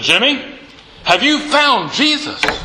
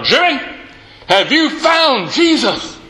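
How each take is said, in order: First: It is said somewhat louder and more forcefully. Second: It is said loudest, with irritation.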